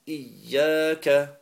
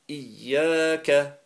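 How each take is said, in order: Both takes have the same delivery.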